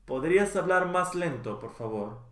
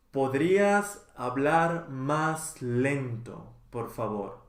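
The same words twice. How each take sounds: First: Natural speed. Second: Slow model. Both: Shown as a demonstration. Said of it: "teacher models phrase twice".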